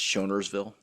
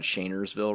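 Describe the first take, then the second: First: The first syllable has a 'shon' vowel. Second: The first syllable has a 'shane' vowel. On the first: This is how the navigation voice says it. The speaker calls it wrong. "says it's Shonersville" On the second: This is how the road is normally called. The speaker calls it right. "when you're on Shanersville Road"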